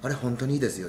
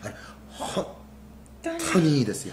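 First: The word 本当に is said quickly and plainly. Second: The word 本当に is drawn out with feeling.

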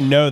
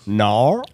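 First: It is said in a plain American accent. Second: It is said in an Australian accent.

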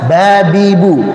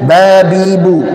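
No difference in how they are said.

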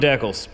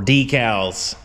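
First: The word is said in a non-American way. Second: The word is said in an American way.

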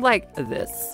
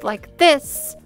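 First: The voice is rough and creaky. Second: The voice is clear and smooth. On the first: "you have a sound like this" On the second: "Instead of a clear voice like this"

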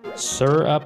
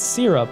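First: The first syllable sounds like the word sir. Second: The first syllable sounds like the word sear. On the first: "Sir up like yes sir" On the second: "sear up like searing a steak"

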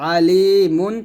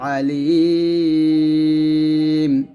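First: The word keeps its full nasal ending. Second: The word ends clipped, with the vowel lengthened. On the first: The reading continues without a stop. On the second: The reader pauses at this word.

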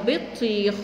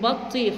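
First: The first syllable has an 'i' vowel. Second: The first syllable has a vowel other than 'i'. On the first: The speaker calls it right. "لا اسمها بطيخ" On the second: The speaker calls it wrong. "في أولاد بيقولوا بطيخ"

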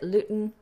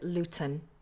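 First: The middle t is a glottal stop. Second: The middle t is a strong released plosive. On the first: "you can either glottalize it" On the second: "or pronounce it with a strong plosive"

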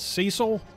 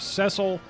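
First: The name is said the common American way. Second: The name is said the British way. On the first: This is how many North Americans said it growing up. "I know a lot of us, including myself, pronounced it as Cecil growing up" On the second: This is the official pronunciation from the voiced version. "everybody found out that it was Cecil, and I believe that's how people in the UK pronounce that name"

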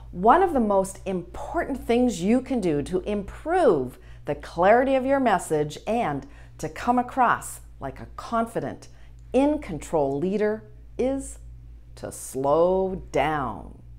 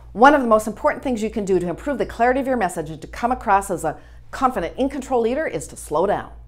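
First: It is spoken at a slower pace. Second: It is spoken at a fast pace.

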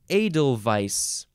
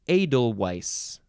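First: The last syllable begins with a v sound. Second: The last syllable begins with a w sound. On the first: "you could say vice" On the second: "or weiss"

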